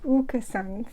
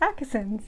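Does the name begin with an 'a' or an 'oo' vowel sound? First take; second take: oo; a. First: The name begins with an 'oo' vowel. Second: The name begins with an English 'a' vowel. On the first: The speaker calls it right. "that little ring above the A makes it an oo sound" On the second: The speaker calls it wrong. "regular speaking English, um, I would pronounce this Akasons. You would be wrong"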